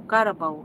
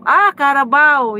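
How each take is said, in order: First: Low, tentative question, searching for the word Carabao; unsure guess. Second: Carabao said louder and slower, pleased at finding the word; a bright aha as the English word Carabao lands; eureka. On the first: Searching for the English word for viewers, tentative guess. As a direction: quietly try out Carabao as a guess. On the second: Finding the English word for viewers, pleased aha. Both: Real, not acted. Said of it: "ano bang English sa kalabaw?".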